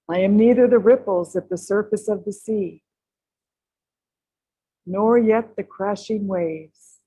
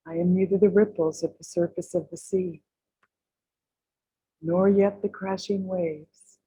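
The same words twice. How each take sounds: First: It is said at a fuller, louder volume. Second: It is said more softly, at lower volume.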